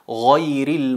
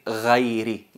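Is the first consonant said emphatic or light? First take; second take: emphatic; light. First: The first consonant is emphatic, with raised tongue. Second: The first consonant is light, without raised tongue. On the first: The speaker calls it right. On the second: The speaker calls it wrong.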